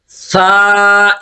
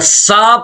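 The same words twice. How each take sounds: First: The consonant is a soft th without hissing. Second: The consonant is a hissing s sound. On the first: The speaker calls it right. "जुबान की नोक आती है, सा, सा। इसकी अदायगी में सीटी की आवाज नहीं बननी चाहिए" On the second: The speaker calls it wrong. "अगर सा पढ़ेंगे तो ये गलत है, ये सीन का साउंड बन जाएगा"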